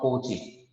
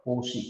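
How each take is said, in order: First: Cauchy said softly as "KOH-chee"; wrong pronunciation. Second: Cauchy said softly as "KOH-shee"; correct pronunciation. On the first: Teacher quoting how students get it wrong, Cauchy as "KOH-chee". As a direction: give Cauchy a hard ch sound, not sh. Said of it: "many of students are pronouncing wrong". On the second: Teacher modelling the word for students, Cauchy as "KOH-shee". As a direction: give Cauchy a sh sound, not ch. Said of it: "This is the pronunciation of this". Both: Shown as a demonstration.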